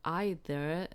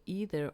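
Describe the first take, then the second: First: "either" starting like the word eye; pronounced EYE-ther. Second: "either" with a long ee first vowel; pronounced EE-ther. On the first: Streamer offering the other option, "either" as EYE-ther. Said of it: "when to say either or either". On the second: Streamer unsure which to say, "either" as EE-ther. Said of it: "I never know when to say". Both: Shown as a demonstration.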